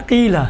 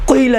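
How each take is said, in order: First: قیلہ with a clean thin "qee"; light q and narrow long i in قیلہ; no rounding in قیلہ, "qeela". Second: قیلہ with a thick rounded "qoi" opening; wrongly heavy. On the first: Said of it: "دیکھیں باریک". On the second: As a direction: mistaken heavy q in قیلہ, "qoila". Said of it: "قیلہ نہیں کہیں گے نا". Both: Shown as a demonstration.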